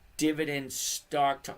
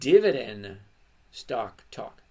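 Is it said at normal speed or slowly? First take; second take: normal speed; slowly. First: It is said at normal speed. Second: It is said very slowly.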